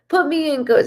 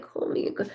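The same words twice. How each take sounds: First: "Put me in, coach" higher with a punched "Put"; the right movie line, said keenly; eager corrected line. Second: Whispered, unsure take of Call me in, coach; first tentative go at the movie line; hushed first try. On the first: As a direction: fix the line and hit "Put" with eager energy. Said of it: "That's what he". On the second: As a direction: say "Call me in, coach" under the breath, half-remembered. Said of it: "I'm like". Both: Retold or imitated.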